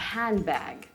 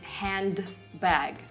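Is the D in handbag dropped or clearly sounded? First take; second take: dropped; sounded. First: The D sound blends away into the B. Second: The D sound is clearly pronounced. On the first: The speaker calls it right. "you say a handbag" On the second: The speaker calls it wrong. "you never say handbag"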